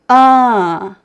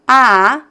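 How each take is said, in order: First: The vowel is more closed and comes through the nose. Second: The vowel is open and comes only through the mouth. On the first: "the nasal sound, which is uh" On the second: "The oral sound"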